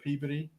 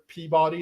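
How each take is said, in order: First: It is pronounced the way locals say it. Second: It is pronounced the way an outsider would. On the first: The speaker is from New England. The speaker calls it right. "instead of" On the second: The speaker is not from New England. The speaker calls it wrong. "somebody that's not from New England"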